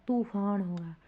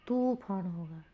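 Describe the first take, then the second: The two takes are said the same way.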